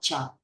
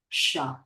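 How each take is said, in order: First: The sound is like 'ch' in 'chair'. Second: The sound is like 'sh' in 'shoe'. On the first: The speaker calls it wrong. "not cha" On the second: The speaker calls it right.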